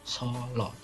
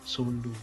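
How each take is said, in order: First: The vowels follow the older traditional Javanese reading. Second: The vowels follow the modern letter-based reading. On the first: This is the reading the older generation uses. The speaker calls it right. "Padahal yang benar ya harusnya membacanya kota Solo" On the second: This is the reading now common among outsiders. The speaker calls it wrong. "jadi sudah salah kaprah sampai sekarang bacanya Sulu"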